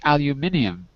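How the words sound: It is said with a British pronunciation. "If you're using British English, it's aluminium"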